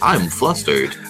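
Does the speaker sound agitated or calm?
calm. The voice sounds calm and even. "you're just like"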